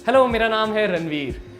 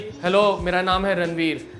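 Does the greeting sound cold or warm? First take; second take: warm; cold. First: It is said warmly, with a smile. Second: It is said flatly, without a smile.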